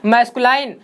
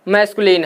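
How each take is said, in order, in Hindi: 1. आखिरी अक्षर में लंबा 'line' स्वर है। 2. आखिरी अक्षर में छोटा 'lin' स्वर है। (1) "कुछ लोग इसको मैस्कुलाइन पढ़ते हैं" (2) "लाइन नहीं, ये क्या है हमारा? मैस्कुलिन है"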